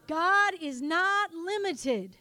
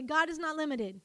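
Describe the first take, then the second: First: Loud, slow "God is not limited", each word weighted; emphatic declaration. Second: Said in the usual way. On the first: Shown as a demonstration. Preacher leading congregation to say it again, loud slow emphasis.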